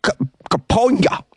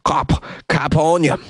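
First: Kap- cut off, then Kaponya said high; stumbling on Kaponya. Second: Kap- then a slow, deliberate Kaponya; slow careful Kaponya. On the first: Host tripping over a Russian district name, stammering. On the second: Host finally saying the district name slowly and carefully. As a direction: spell Kaponya out slowly, syllable by syllable. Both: Shown as a demonstration. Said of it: "I can't say this word".

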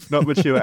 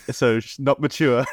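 First: "Not mature" said again higher through a laugh; "Not mature" repeated, high and giggling. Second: Said in the usual way. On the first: Real, not acted.

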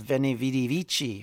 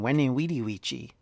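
First: Veni Vidi Vici with hard English V's; V sound. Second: Veni Vidi Vici with every V as W; W sound. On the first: Lecturer quoting the familiar Caesar line, Veni Vidi Vici with V sounds. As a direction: say Veni Vidi Vici as VEN-ee VEE-dee VEE-chee. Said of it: "rather than a V sound". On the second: Lecturer showing likely classical pronunciation, Veni Vidi Vici with W sounds. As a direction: say Veni Vidi Vici as WEN-ee WEE-dee WEE-chee. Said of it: "it was W sound". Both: Shown as a demonstration.

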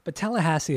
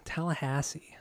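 First: Said in the usual way. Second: Whispered, unvoiced Tallahassee. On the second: Real, not acted. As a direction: breathe Tallahassee with no voice.

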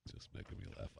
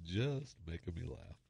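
First: Breathless whisper dissolving into laughs; real laughter, whispered; whispered through laughter. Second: Soft words through real giggles; barely holding it together, quietly; laughing. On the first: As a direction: voice gives out from laughing. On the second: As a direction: still laughing at his own joke. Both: Real, not acted.

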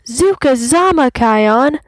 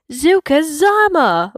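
First: Sung, high, loud sing-song cheer; playful chant of a call. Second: High, loud excited cry; joyful exclamation; exclaimed. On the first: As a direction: sing it out while leaping. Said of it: "Bunga sings". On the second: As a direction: burst out with joy. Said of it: "Bunga exclaims". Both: A narrator's reading.

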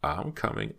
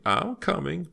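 First: Mild first call, only slightly raised; understated call to someone waiting; calling from behind. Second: Very high, singsong repeated call; much higher, more urgent call; insistent calling out. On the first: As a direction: answer a summons with a light call. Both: A narrator's reading. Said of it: "Missus Cartier called from behind Myra".

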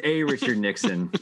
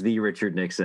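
First: "a" stressed as a full "ay". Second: "the" stressed as a full "thee". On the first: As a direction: lean on "a", saying it like the letter A. Answers namesake, not the famous one. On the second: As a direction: set "the" apart as "thee", meaning the famous one. Contrasts with the famous Nixon. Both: Real, not acted.

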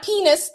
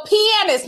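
First: "penis" said as PEE-nis, the earlier wrong reading; "penis" said the way it was misread; the mispronunciation. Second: "pianist" said carefully as pee-AN-ist; "pianist" said slowly and deliberately, pee-AN-ist; correct pronunciation. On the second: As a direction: give "pianist" its full three syllables, pee-an-ist. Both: Shown as a demonstration. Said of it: "did I mispronounce the word?".

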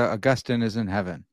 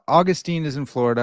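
First: "Augustine" said uh-GUS-tin; uh-GUS-tin pronunciation. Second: Put-on "Augustine" said AW-gus-teen; first syllable of "Augustine" stressed, ending in teen; AW-gus-teen pronunciation. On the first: Host settles the name debate, "Augustine" as uh-GUS-tin. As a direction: middle syllable of "Augustine" stressed, ending in a short tin. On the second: Host settles the name debate, "Augustine" as AW-gus-teen. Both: Shown as a demonstration. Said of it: "we've solved that one".

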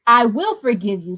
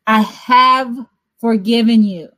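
First: "will" leaned on as a future promise; stress on will. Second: "have" punched louder, "forgiven" firmly falling as finished; stress on have forgiven. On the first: Preacher contrasting God's promise with what's done, stress on "will". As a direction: say "I will forgive you" weighting "will" as not yet done. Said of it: "is not because". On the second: Preacher correcting the congregation, firm emphasis on "have forgiven". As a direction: press "I have forgiven you" as already done. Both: Shown as a demonstration.

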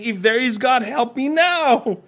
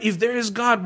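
First: Mock plea, higher, slowing on help me now; sneering sarcastic call to God; sarcastic cry for help. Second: Said in the usual way. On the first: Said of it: "crying out in a sarcastic way saying". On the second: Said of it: "how many atheists you've sat down with".

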